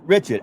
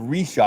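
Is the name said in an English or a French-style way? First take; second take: English; French-style. First: The name is said the usual English way. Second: The name is said the French-style way. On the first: This is how it is said where the speaker grew up. "Where I come from, Richard is pronounced Richard" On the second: This is how it is said locally in Louisiana. "I never heard of Rishaw"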